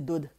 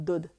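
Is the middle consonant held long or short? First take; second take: short; short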